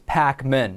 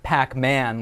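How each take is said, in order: First: The name does not sound like the video game. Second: The name sounds like the video game. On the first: The speaker calls it right. "The right pronunciation of my last name" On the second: The speaker calls it wrong. "not Pac-Man like the video game"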